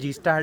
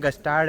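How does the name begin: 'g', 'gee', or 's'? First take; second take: gee; g. First: It begins with the letter name gee. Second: It begins with a short g sound before s. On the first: "हम सब गलत बोलते हैं" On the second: "हम सब गलत बोलते हैं"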